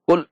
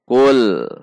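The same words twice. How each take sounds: First: The syllable is struck hard and cut off abruptly. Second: The syllable is drawn out with a gentle swing. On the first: The speaker calls it wrong. "tidak juga boleh dihentak seperti kul" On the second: The speaker calls it right. "namun sedikit seperti mengayun"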